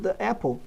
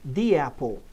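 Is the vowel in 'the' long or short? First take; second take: short; long. First: 'The' has a short, reduced vowel. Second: 'The' has a long 'ee' vowel. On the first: The speaker calls it wrong. "eu não falo the apple? Não, porque é mais difícil de ligar o som" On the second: The speaker calls it right. "som de I agudo e longo"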